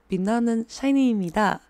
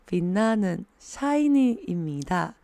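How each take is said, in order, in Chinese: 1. 这句话是正常语速。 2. 这句话说得稍微慢一点。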